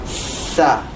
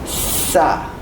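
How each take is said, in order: First: The s sound is strong and tense. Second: The same.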